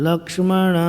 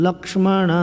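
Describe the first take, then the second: Both takes have the same delivery.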